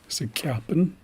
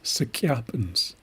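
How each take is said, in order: First: The word ends without a final s sound. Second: The word ends with a final s sound. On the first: The speaker calls it wrong. "I have heard people just say Sikyapen. That's not the correct way" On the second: The speaker calls it right. "the S is part of it. It is Sikyapens"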